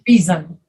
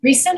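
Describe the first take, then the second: First: The middle consonant is a buzzing Z sound. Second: The middle consonant is a hissing S sound. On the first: The speaker calls it right. "an S in the middle of it that's pronounced like a Z" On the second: The speaker calls it wrong. "Not reason"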